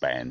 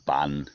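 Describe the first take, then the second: First: The vowel is the open 'a' of 'ban'. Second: The vowel is the short 'u' of 'bun'.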